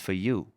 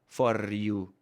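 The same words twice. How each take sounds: First: The vowel is a schwa and the R is dropped. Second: The R in the first word is strongly rolled. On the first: The speaker calls it right. "If you reduce the sound to a schwa" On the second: The speaker calls it wrong. "with a strong R"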